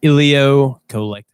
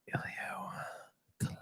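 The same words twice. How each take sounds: First: It is said slowly in a plain voice. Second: It is said slowly in a breathy, sexy voice.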